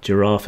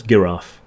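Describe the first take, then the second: First: Giraffe begun with a soft j sound. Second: Giraffe begun with a hard g. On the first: Stating how the word is pronounced, soft-g giraffe. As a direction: say "giraffe" with the g as in gem. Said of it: "Giraffe is pronounced giraffe". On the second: Jokingly correcting the pronunciation, hard-g giraffe. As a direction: say "giraffe" with the g as in give. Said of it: "No, it's giraffe". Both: Shown as a demonstration.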